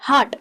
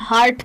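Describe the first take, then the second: First: The R sound is faint, barely heard. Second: The R sound is strong and clearly heard. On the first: The speaker calls it right. "ये ध्यान रखना है कि इसको कहते हैं हार्ट" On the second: The speaker calls it wrong. "जहाँ आर बहुत ज़्यादा होता है"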